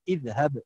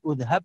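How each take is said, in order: First: The word begins with an i vowel. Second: The word begins with an u vowel. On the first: The speaker calls it right. "hamzah di depan itu dibaca i" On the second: The speaker calls it wrong. "bukan udhab"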